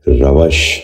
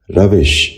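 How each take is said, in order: First: روش said "ravash", with an "a" before the sh; mispronounced vowel. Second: روش said "ravish", short "i" before the sh; correct pronunciation. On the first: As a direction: end روش on "-vash" instead of "-vish". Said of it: "یہ غلط تلفظ ہے". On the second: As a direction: end روش on "-vish", not "-vash". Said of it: "درست تلفظ ہے". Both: Shown as a demonstration.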